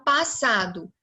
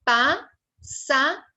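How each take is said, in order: First: Said in the usual way. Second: PASSADO slowly as pas-sa-do; three separate beats on passado, pauses between; split into syllables. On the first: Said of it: "três sílabas". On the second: Shown as a demonstration. Teacher separating the double S, syllable by syllable. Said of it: "Quando eu for separar".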